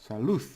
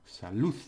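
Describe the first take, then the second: The two takes are said the same way.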